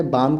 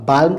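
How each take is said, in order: First: "बाम" with no L; correct pronunciation. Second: "बाल्म" with L before M; wrong pronunciation. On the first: Teacher showing how it is said, correctly pronounced. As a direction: say "बाम", L silent. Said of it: "कहते हैं". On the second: Teacher showing how not to say it, mispronounced. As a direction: pronounce the L in "बाल्म". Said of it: "तो नहीं कहते". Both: Shown as a demonstration.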